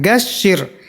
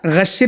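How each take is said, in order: First: गशिर with a clean hard g, not ghain; गशिर with a crisp g, the right way; hard g sound. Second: गशिर with a throaty gh, like Arabic ghain; गशिर with a scraped gh, the wrong way; wrong ghain sound. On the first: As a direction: say गशिर starting with a plain stop g. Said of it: "गा से बोलना है". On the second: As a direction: say गशिर starting with a fricative ghain. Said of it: "गैन से नहीं बोलना है". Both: Shown as a demonstration.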